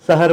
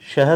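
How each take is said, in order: First: The word begins with a plain 's' sound. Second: The word begins with an 'sh' sound. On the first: The speaker calls it wrong. "श के जगह पे स बोल दिए हैं" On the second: The speaker calls it right. "शहर होता है"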